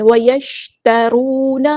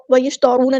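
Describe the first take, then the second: First: وَيَشْتَرُونَ slow, with a light ta and a heavy waw; correct tajweed. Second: وَيَشْتَرُونَ with a heavy, thick ta; wrong reading. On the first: Teacher showing students the right way to read وَيَشْتَرُونَ. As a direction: say وَيَشْتَرُونَ with the ta thin and the waw full. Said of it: "تا باریک light letter ہے اور واو ہمارے یہاں پہ heavy موچا". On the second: Teacher showing students the mistake in وَيَشْتَرُونَ. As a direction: say وَيَشْتَرُونَ with the ta made full. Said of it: "تا کو موچا نہیں کرنا". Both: Shown as a demonstration.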